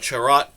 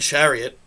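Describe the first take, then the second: First: The name is said as the shorter form Charat. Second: The name is said like the word chariot. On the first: The speaker calls it right. "it's definitely a uh, Charat and not Chariot" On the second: The speaker calls it wrong. "I almost just called this guy Ben Chariot"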